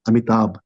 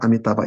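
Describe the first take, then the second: First: The word ends without a vowel sound. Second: The word ends with a vowel sound. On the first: The speaker calls it right. "it's Amitabha, Amitabh" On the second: The speaker calls it wrong. "Amitabha is not Amitabha"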